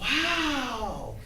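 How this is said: It is said with a happy, excited tone. The news is thrilling. "That's exciting"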